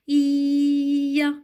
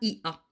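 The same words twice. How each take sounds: First: The i glides into a with a y sound. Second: The i and a are said as separate vowels. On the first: The speaker calls it right. "je dis Ia, comme dans piano" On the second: The speaker calls it wrong. "Je ne dis pas I-A"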